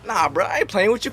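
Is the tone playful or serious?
playful. It is said in a playful tone. The speaker is joking around.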